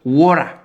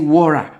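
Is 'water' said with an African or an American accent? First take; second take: American; American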